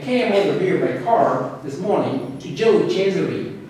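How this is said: American accent, the R is clearly pronounced. "If I say that in American English"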